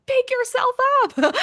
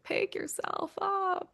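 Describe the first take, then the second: First: High, loud pep-talk to herself; a cheerleader yelling at the character; urging herself on. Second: Soft, high and slow, almost under her breath; a soft private nudge while reading the script; gentle self-urging. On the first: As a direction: snap her out of it, pitched way up and loud. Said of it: "I was like". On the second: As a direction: coax herself quietly and slowly. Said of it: "I was kinda like". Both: Retold or imitated.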